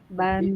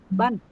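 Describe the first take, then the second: First: The syllable is pressed too weakly. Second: The syllable is pressed too strongly. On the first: "kalau terlalu lemah" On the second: "Kalau terlalu kuat"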